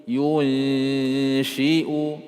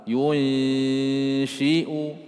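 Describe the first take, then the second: The two takes are said the same way.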